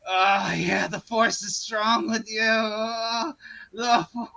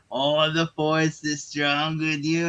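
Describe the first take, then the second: First: Moaning with mock pleasure; slow, suggestive groaning villain parody, breaking up at the end; the Emperor. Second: Slow, drawn-out villain impression; the Emperor. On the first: Emperor really liking it as Anakin bows, mock-ecstatic moaning. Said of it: "the Emperor's really liking it". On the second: Emperor standing over kneeling Anakin, slow stretched villain voice. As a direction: stretch the words like a gloating Sith master. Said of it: "the Emperor's standing going".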